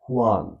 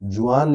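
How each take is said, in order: First: The name begins with an h sound. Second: The name begins with a j sound. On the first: This is how people say it. "They call it हुआन" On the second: This is how it is written. "अगर जुआन लिखते हैं"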